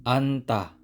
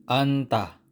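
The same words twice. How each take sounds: No difference in how they are said.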